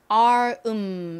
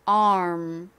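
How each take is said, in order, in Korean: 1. m 소리는 끊어진 뒤에 따로 나요. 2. m 소리는 끊김 없이 빠르게 이어져요. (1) "이렇게 발음하시면 안 되고요" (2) "R 소리를 내면서 빠르게 입을 음 모양으로 바꿔주셔야 돼요"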